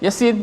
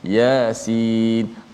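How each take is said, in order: First: The first vowel is short, without lengthening. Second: The first vowel is lengthened to two beats. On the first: The speaker calls it wrong. "tak boleh baca mat, kita baca macam biasa" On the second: The speaker calls it right. "ya tu tetap dibaca dengan dua, ya, dua harakat juga"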